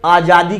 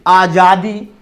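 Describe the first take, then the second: First: Long AA opening आजादी; आजादी begun on a long आ, the rejected form; incorrect long vowel. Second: Short A opening आजादी, as अजादी; आजादी begun on a short अ, the approved form; correct short vowel. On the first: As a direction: say आजादी with a full first "aah". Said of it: "कभी नहीं होता है". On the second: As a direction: say आजादी with a brief first "uh". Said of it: "शुद्ध इसका उच्चारण होता". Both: Shown as a demonstration.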